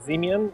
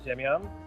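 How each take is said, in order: First: The surname is said with English pronunciation. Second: The surname is said with Polish pronunciation.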